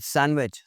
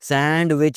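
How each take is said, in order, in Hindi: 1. n के बाद d की कोई आवाज़ सुनाई नहीं देती। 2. n के बाद एक साफ़ d की आवाज़ सुनाई देती है। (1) "डी इसमें साइलेंट है" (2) "सैंडविच नहीं होता"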